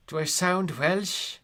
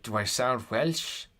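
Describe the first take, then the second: First: High, slow, loud sing-song Welsh accent. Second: Said in the usual way. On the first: Shown as a demonstration. Streamer challenging a viewer who called them Welsh, mock Welsh accent. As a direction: ask it in an exaggerated Welsh lilt. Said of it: "this is what Welsh people sound like".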